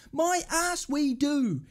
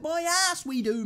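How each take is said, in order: First: Drawn-out, emphatic disbelief; slow scornful retort. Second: Higher-pitched, indignant disbelief; scornful retort. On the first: Fan repeating his rejection of the manager's claim, slow and scornful. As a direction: stretch every word in contempt. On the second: Fan rejecting the manager's scoring claim, indignant and high. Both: Real, not acted.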